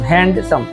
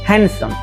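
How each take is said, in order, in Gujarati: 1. વચ્ચે d નો અવાજ સંભળાય છે. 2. વચ્ચે d નો અવાજ સંભળાતો નથી. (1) "આવી રીતે ઉચ્ચાર કરવાનો નથી" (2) "એકદમ સીધો અને સરળ ઉચ્ચાર"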